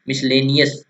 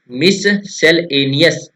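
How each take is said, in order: First: Said in the usual way. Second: मिससेलेनियस very slow, with gaps after "mis" and "sel"; broken into parts. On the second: Shown as a demonstration. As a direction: spell out the sound of मिससेलेनियस in three clear chunks. (मिससेलेनियस को बहुत धीरे, तीन टुकड़ों में तोड़कर) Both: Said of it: "ऐसे तोड़कर याद कीजिए इसको".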